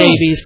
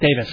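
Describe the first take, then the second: First: The name ends with a 'vees' sound. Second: The name ends with a 'vis' sound. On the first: This follows the written spelling. "I'm pretty sure it's spelled" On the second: This is how the English say it. "the way the English pronounce it, it's Davis"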